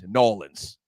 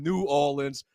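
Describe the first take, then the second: First: The name is squeezed into two short syllables. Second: The name is said fully, with all its syllables.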